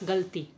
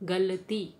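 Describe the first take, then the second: First: The short vowel after l is dropped. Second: The short vowel after l is pronounced. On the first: This is the common everyday pronunciation. "हम सामान्यतः क्या उच्चारण करते हैं" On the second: This is how it ought to be pronounced. "उच्चारण क्या होना चाहिए"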